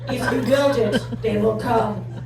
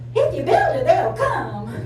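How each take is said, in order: First: It is said in an imitated man's voice. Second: It is said in an imitated woman's voice. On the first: "Somebody like [name]" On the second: "And we can get [name]"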